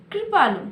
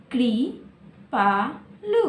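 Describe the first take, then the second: First: Said in the usual way. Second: कृपालु drawn out slowly, piece by piece; slowed to syllables. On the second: Shown as a demonstration. Teacher breaking a word into syllables for children, slowly. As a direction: spell कृपालु aloud slowly. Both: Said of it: "कैसे पढ़ेंगे?".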